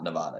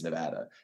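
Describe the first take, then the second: First: It is pronounced the way outsiders say it. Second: It is pronounced the way locals say it. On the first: This is how people from elsewhere say it. The speaker calls it wrong. "everyone else outside of Nevada says Nevada. It doesn't change the fact that it's not Nevada" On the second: This is how people from the place itself say it. The speaker calls it right. "It is Nevada"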